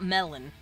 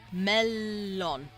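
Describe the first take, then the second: First: The L sound is short. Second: The L sound is held long. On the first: The speaker calls it wrong. "It's not melon" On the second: The speaker calls it right. "You pronounce that L a little bit longer because there's two of them"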